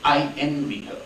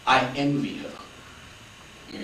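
First: Said in the usual way. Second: "I envy her." whispered very slowly and softly, breathy with awe. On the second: Shown as a demonstration. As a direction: hush it right down and stretch each word.

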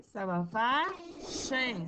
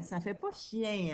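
First: Slow, stretching "chien" as a plain nasal in, without the ie; slow wrong reading. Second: Said in the usual way. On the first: Shown as a demonstration. Teacher testing pupils with a slowed wrong reading. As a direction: read "chien" slowly as a bare in sound. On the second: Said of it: "il manque le E".

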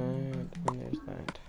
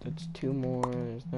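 First: Stretched out slowly; slow drawn-out. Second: Said in the usual way. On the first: Real, not acted. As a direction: drag each word out. Drawn out final item.

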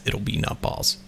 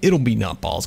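First: Hushed whisper to yourself. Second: Said in the usual way. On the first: Real, not acted. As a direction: breathe it out, no voice. Repeats line, second whispered.

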